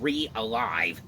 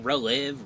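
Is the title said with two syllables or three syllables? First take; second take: three syllables; two syllables. First: The title is said with three syllables. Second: The title is said with two syllables. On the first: The speaker calls it right. "I know how you say it now" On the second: The speaker calls it wrong. "I remember I was always saying relive"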